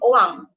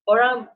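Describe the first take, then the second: First: It is said Terengganu-style, with the R dropped. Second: It is said with the R sounded.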